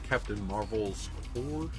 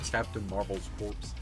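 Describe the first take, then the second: First: The last word ends without a p-s sound. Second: The last word ends with a p-s sound. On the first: The speaker calls it right. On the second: The speaker calls it wrong.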